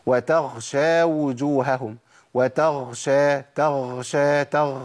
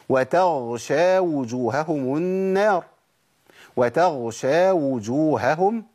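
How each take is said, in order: First: Drawn-out chant, breath running through the ghayn of وتغشى; ghayn turned kha. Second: Slow chant, clean ghayn before the shin in وتغشى; correct ghayn recitation. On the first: Teacher shows the mistake, audible breath turning ghayn to kha. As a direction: let breath leak so وتغشى sounds like وتخشى. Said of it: "سامع النفس ده؟". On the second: Teacher gives another example, voiced ghayn in slow recitation. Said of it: "نجيب تاني مثال تاني". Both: Shown as a demonstration.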